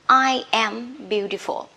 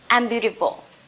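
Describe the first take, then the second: First: I and am are said as two full words. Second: I and am are joined into one contracted syllable. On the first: "I am" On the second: "in short form"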